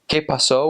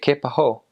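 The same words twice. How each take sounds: First: The s in pasó is a clear hiss. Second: The s in pasó is breathy air, like h.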